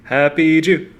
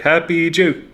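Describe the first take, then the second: First: The final P sound is left off. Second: The final P sound is left off.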